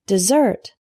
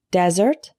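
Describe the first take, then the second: First: DESERT stressed on the second syllable; desert with weak start, strong "ZERT"; verb pronunciation. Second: DESERT stressed on the first syllable; Desert with a strong "DEZ"; noun pronunciation. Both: Shown as a demonstration. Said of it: "desert and desert".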